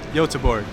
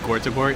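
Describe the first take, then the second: First: The name starts with a Y sound. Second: The name starts with a hard G sound. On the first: The speaker calls it right. "it's pronounced Yotaborg" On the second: The speaker calls it wrong. "I pronounced it wrong earlier"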